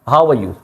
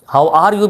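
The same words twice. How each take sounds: First: The words run together, dropping the r. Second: Each word is said separately and fully. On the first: "सिर्फ वाव के साथ डब्ल्यू के साथ ए को मिला के हाउ आर यू, हाउ आर यू ऐसे बोलते हैं।" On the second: "हाउ आर यू भी आप कह सकते हैं, वो भी ठीक है।"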